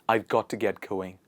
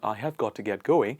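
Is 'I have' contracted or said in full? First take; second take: contracted; full. First: I have is contracted to I've. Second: I have is said in full. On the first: The speaker calls it right. "make sure that you contract it" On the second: The speaker calls it wrong.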